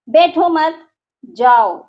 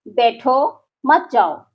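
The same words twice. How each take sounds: First: There is a pause after the second word. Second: There is a pause after the first word.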